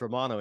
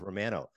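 First: The name is said the American way. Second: The name is said the Canadian way. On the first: This is how the name is said in America. "in America, it's Romano" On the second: This is how the name is said in Canada. "It's Canada, it's Romano"

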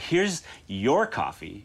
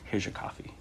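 First: It is said in an exaggerated, overdone way. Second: It is said plainly and naturally.

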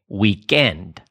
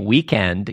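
First: The stress is on the second syllable. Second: The stress is on the first syllable. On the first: "You say weekend" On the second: "Like you don't say weekend"

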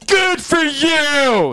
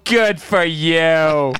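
First: It is said with enthusiasm and energy. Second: It is said weakly, without energy.

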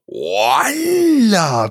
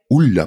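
First: An extra o sound is added, exaggerated. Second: The vowel becomes u, said softly. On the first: "la versión un poco más exagerada, que es colocar una O delante" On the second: "la forma un poquito más suave, que es decir, ¡hula"

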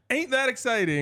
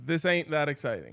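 First: It sounds like an excited, rising question. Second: It sounds like a flat, falling statement.

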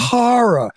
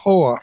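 First: It is said with two full syllables, 'horror'. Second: It is squeezed into one syllable, like 'whore'. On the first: The speaker calls it right. "please pronounce that correctly" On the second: The speaker calls it wrong.

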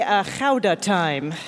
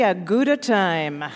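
First: Gouda is said the Dutch way. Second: Gouda is said the usual English way.

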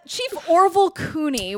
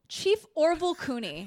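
First: The name is said in a mocking, incredulous tone. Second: The name is said in a plain, neutral tone.

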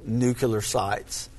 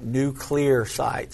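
First: Nuclear is said with an extra 'u' sound, nucular. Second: Nuclear is said as new-clee-ar. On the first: The speaker calls it wrong. "Let me say that right" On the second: The speaker calls it right. "Let me say that right"

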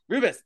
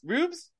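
First: The name is said with the second vowel. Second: The name is said without the second vowel. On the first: The speaker calls it right. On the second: The speaker calls it wrong.

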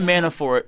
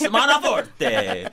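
First: The name is said in a plain, ordinary way. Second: The name is said with an audacious, showy ending. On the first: The speaker calls it wrong. "if you have the last name Manafort" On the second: The speaker calls it right. "you should pronounce it as Manaforte. Audaciously as possible"

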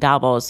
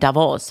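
First: The name is said with an English pronunciation. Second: The name is said with a French pronunciation. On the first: "for those who pronounce it in English" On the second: "for those who pronounce it in French"

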